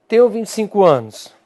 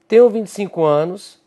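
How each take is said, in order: Both takes have the same delivery.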